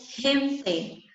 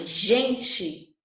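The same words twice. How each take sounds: First: "gente" with a rough h-like Spanish j sound; Spanish pronunciation. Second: Said in the usual way. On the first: Shown as a demonstration. Teacher showing students Spanish gente, with breathy h. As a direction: say "gente" as Spanish hente, throat h. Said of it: "eu pronuncio gente". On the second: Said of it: "a palavra gente em espanhol".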